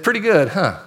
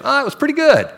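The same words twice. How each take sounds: First: "Pretty good" echoed back, dry and doubting; skeptical echo. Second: High, offhand "pretty good", unimpressed; lukewarm shrug. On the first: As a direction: throw their word back with a raised eyebrow. Leader echoes the lukewarm answer. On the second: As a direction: brush it off like it was only okay. Group member reports lukewarm worship. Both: Retold or imitated.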